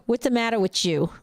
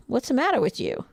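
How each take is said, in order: First: Put-on a light Jersey accent on "What's the matter with you?". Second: Said in the usual way. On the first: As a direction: tease in a mild New Jersey accent. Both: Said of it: "My Jersey accent".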